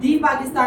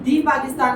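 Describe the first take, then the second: First: The word 'the' is said with a long 'ee' vowel. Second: The same.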